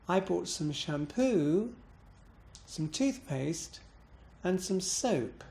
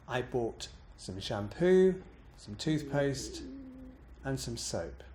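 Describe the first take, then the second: First: "shampoo" and "toothpaste" dip then lift, "soap" bounces and falls; expressive down-up on each item, final bounce on "soap"; list intonation. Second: Said in the usual way. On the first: Shown as a demonstration. Teacher demonstrating a list, down-up pattern then final bounce. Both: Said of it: "like this".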